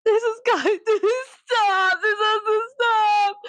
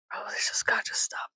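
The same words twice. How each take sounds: First: High, drawn-out fake sobbing; hammed-up tearful whine; mock wailing. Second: Whispered plea, hammed up; hushed, exasperated whisper; mock-desperate whisper. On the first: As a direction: wail it slowly in comic despair. Repeats the plea as comic wailing. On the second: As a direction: whisper it like you can't take it. Quotes own despair, whispered first.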